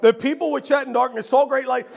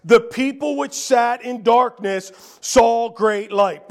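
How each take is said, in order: First: Said in the usual way. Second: Slow, weighty reading of the verse; slow scripture reading. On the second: Shown as a demonstration. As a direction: lay each word down slowly.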